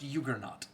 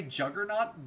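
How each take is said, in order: First: "Juggernaut" begun with a Y sound, "YUG-er-naut"; native-style "Juggernaut", opening like "you" rather than "jug"; original J-as-Y pronunciation. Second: "Juggernaut" with a hard English J, "JUG-er-naut"; English-style "Juggernaut", opening with "juh"; anglicized J pronunciation. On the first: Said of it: "the J is supposed to be a Y". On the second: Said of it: "We all say Juggernaut". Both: Shown as a demonstration.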